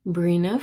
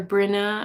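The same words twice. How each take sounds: First: "Brina" with a long ee, BREE-nah; long-vowel Brina. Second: "Brinna" with a short i, BRIN-ah; short-vowel Brinna. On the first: Host trying a viewer's name, "Brina" said BREE-nah. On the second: Host offering another guess at the name, "Brinna" said BRIN-ah. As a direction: say "Brinna" as BRIN-ah, first syllable like "grin". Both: Shown as a demonstration. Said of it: "I don't know if I pronounce it".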